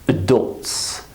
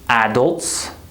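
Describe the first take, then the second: First: The first vowel is reduced to a weak uh. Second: The first vowel is a full, clear vowel. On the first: The speaker calls it right. "we say adults" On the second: The speaker calls it wrong. "instead of saying adults"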